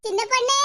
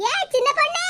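First: Said in the usual way. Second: Calling out. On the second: Acted. Mother calling out to the young girl, rising. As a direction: call her name higher with a rising end.

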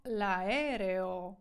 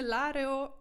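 First: 'l'aereo' with a and e sounded separately, la-E-reo; correct reading. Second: 'l'aereo' run together as 'lareo', the e after a dropped; wrong reading. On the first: Teacher corrects the misreading, careful 'la-E-reo'. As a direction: stretch 'l'aereo' so each vowel is heard. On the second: Teacher shows learners the mistake to avoid, misreading 'l'aereo' as 'lareo'. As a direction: say 'l'aereo' as 'LA-reo', swallowing the first e. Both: Shown as a demonstration. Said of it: "Нічого там не l'aereo".

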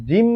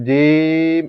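First: জিম with short i and a humming m, pitched up; unstretched vowel Jim. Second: জিম with a long, loud, held ee; elongated Jim. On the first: Teacher offers learners the first option, short-vowel জিম. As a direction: keep the i of জিম brief, hold the m. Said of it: "জিম বলবো নাকি জিম". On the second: Teacher offers learners the second option, drawn-out জিম. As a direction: stretch the i of জিম well out before the m. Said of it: "এরকম বলবো?". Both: Shown as a demonstration.

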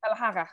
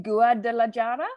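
First: Guadalajara run together with a breathy Spanish j, like an h; corrected pronunciation. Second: Guadalajara sounded out syllable by syllable by an English speaker; hesitant mispronunciation. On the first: Interviewer copying the guest's correction, Guadalajara said more the Spanish way. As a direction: echo the native Guadalajara, j said as h. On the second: Interviewer attempting a Spanish place name for the guest, Guadalajara awkwardly anglicised. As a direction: try Guadalajara uncertainly in a terrible accent, questioning. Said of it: "laugh at my terrible accent".

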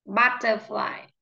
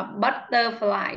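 First: "Butterfly" with an open Á first; correct pronunciation. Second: "butterfly" with ơ instead of Á first; wrong pronunciation. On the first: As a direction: model "Butterfly", first vowel opened to Á. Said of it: "Nó âm Á". (đọc mẫu "Butterfly", âm đầu là Á) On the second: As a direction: mispronounce "butterfly" with a closed first vowel. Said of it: "is not good". (đọc sai "butterfly", âm đầu thành ơ) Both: Shown as a demonstration.

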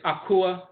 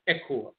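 First: "Akua" with ah first, ah-KOO-ah; Asante pronunciation. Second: "Ekua" with eh first, eh-KOO-ah; Fanti pronunciation. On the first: Lecturer giving a Wednesday name, "Akua" as ah-KOO-ah. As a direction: open the first vowel of "Akua" to ah. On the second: Lecturer giving the Fanti form, "Ekua" as eh-KOO-ah. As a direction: start "Ekua" on eh. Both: Shown as a demonstration. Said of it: "the Fanti pronounce it".

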